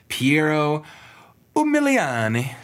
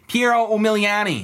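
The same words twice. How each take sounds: First: The name is said in a neutral accent. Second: The name is said in a Midwestern accent.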